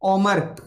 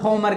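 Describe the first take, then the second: First: The name begins with a vowel sound. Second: The name begins with an h sound. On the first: The speaker calls it right. "ओमर ही होता है" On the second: The speaker calls it wrong. "होमर गलत है"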